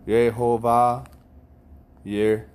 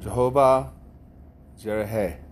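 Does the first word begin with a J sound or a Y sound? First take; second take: Y sound; J sound. First: The first word begins with a Y sound. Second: The first word begins with a J sound. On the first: The speaker calls it right. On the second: The speaker calls it wrong.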